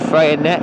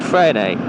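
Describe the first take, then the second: First: The name is said as English spelling suggests. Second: The name is said with a French sound. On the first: "the way you'd look at it" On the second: "I believe it's called Freycinet"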